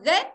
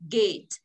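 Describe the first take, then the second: First: It is said with a Vietnamese-style accent. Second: It is said with a native-like English accent. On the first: The speaker calls it wrong. "Mình đọc là get" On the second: The speaker calls it right. "Cô đọc cái cổng là gì ạ?"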